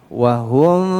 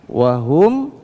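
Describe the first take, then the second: No difference in how they are said.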